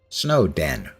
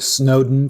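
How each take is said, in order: First: The second syllable is a full 'den'. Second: The second syllable is reduced and weak. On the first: It is a snowy place with dens. The speaker calls it right. "because it's a snowy place with dens" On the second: It is named like the English politician. The speaker calls it wrong. "I pronounced it Snowden for thirteen years, based on the fact there was an English politician named Lord Snowden"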